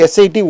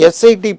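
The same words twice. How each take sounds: The two takes are said the same way.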